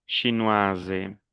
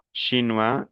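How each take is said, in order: First: "chinoise" falling, ending in a voiced z; sounded feminine ending. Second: "Chinois" ending on a rising wa; silent final S. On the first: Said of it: "el femenino es". ("chinoise" pronunciando la s como z) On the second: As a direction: leave the s off "Chinois". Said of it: "las S finales no se pronuncian". ("Chinois" terminado en wa, sin la s) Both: Shown as a demonstration.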